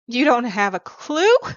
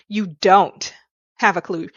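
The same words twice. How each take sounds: First: The stress falls on the word 'clue'. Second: The stress falls on the word 'don't'.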